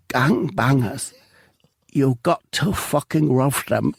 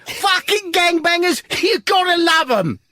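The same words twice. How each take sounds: First: Slow, strained last words of a dying man; dying breath. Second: Triumphant shout. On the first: Narrator voicing the shot man's dying words, slow and spent. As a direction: gasp it out slowly like your final breath. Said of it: "with what seems like his dying breath". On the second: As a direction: belt the punchline out with glee. Cop's triumphant punchline. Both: Acted.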